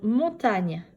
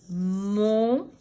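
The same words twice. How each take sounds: First: Said in the usual way. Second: "Montagne" split slowly as mon, ta, gne; syllable by syllable. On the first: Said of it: "combien y a-t-il de syllabes". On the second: Shown as a demonstration. Teacher correcting a syllable count, "Montagne" in three separated syllables. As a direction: hold each syllable of "Montagne" apart. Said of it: "Trois syllabes".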